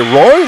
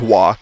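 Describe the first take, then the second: First: The name is said with a plain English sound. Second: The name is said with a French-Canadian sound. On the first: "I bet around here, though, they say Roy" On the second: "I give the Canadian pronunciation there"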